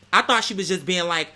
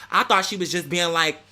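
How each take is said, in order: Both takes have the same delivery.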